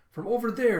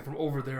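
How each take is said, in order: First: High, loud exclamation; emphatic call-out. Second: Said in the usual way. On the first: Retold or imitated. Zoro answering where the booze is, loud call-out. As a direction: shout out where it came from. Acted reply, pointing out the source.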